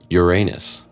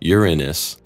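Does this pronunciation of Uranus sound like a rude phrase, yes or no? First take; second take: yes; no. First: It is pronounced so it sounds like a rude phrase. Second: It is pronounced so it avoids the rude phrase. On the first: This is the older, embarrassing pronunciation. "Uranus was there pronounced like Uranus" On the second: This is the newer pronunciation that avoids the faux pas. "the new pronunciation"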